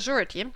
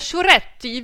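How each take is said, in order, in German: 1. Der Name wird ganz schlicht ausgesprochen. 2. Der Name wird italienisch klingend ausgesprochen.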